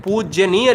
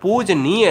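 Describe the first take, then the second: First: "पूजनीय" with an added y after ज, poojya-neeya; गलत रूप पूज्यनीय. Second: "पूजनीय" as pooj-neeya, no y after ज; शुद्ध रूप पूजनीय. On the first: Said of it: "गलत है". ("पूजनीय" को पूज्यनीय बोलें, ज के बाद य) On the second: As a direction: slowly say "पूजनीय", ज straight into नी. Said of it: "ये सही शब्द क्या है". ("पूजनीय" में ज के बाद य नहीं) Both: Shown as a demonstration.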